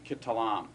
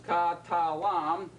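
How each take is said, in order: First: "kitalam" as one word with a quick schwa first; shortened first vowel. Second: "ka, ta, lam" in three separate, full-vowelled syllables. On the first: Teacher showing a vowel change you barely hear, shortened first vowel. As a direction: run "kitalam" together, first vowel reduced. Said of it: "as it shortens to schwa". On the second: Teacher counting three syllables for the class, syllable by syllable. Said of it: "You now have three syllables". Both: Shown as a demonstration.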